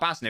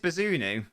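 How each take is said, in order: First: The name is said with two syllables. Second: The name is said with three syllables. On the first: The speaker calls it wrong. "not Baznu" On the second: The speaker calls it right. "so it is Bazunu"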